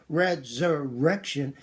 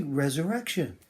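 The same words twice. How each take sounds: First: Resurrection with the "er" dragged out and broken; choppy resurrection. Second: Resurrection said smoothly in one flowing breath. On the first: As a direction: say resurrection haltingly with a stretched "er". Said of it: "Don't say resurrection". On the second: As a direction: let resurrection flow evenly, no breaks. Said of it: "Say resurrection". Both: Shown as a demonstration.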